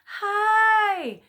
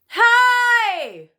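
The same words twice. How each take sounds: First: It is said weakly with much less sound. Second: It is said loudly with full, supported sound.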